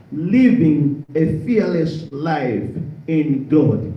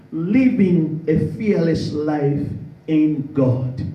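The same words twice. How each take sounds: The two takes are said the same way.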